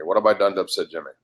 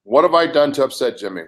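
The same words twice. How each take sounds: First: Repeated faster and lower, under the breath; fast low mutter. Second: Said in the usual way. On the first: Real, not acted. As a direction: rush it low, muttering to yourself.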